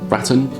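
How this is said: It rhymes with the British way of saying baton. "like it would rhyme with baton"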